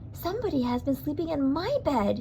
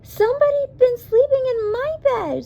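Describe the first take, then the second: First: It is a sweet, low Mama Bear voice. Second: It is a squeaky Baby Bear voice.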